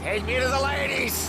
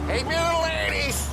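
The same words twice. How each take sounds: First: Put-on high drunken call, repeated; drunk yelling. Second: Put-on high drunken shout of glee; drunk yelling. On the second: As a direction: bellow it, drunk and eager. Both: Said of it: "you're drunk".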